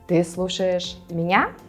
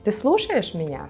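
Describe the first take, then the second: First: The last word carries the emphasis. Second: The middle word carries the emphasis. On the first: It asks whether the person is listening to me or someone else. "you'll emphasize the word me, меня" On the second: It asks whether the person is listening at all. "you will emphasize the word listen, слушать"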